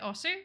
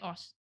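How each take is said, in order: First: The final u vowel is clearly pronounced. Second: The final u vowel is dropped. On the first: The speaker calls it wrong. "I always said Osu" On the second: The speaker calls it right. "just leave out the U"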